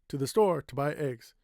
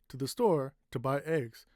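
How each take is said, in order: First: The phrase is said quickly. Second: The phrase is said at a normal, measured pace. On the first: "I can say quickly" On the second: "I stopped a little bit here"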